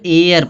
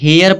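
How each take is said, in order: First: The word starts directly with a vowel. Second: The word starts with an h sound. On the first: The speaker calls it right. "यहाँ एयर पढ़ा जाएगा" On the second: The speaker calls it wrong. "कुछ लोग हेयर पढ़ेंगे, इसको हेयर नहीं पढ़ा जाएगा"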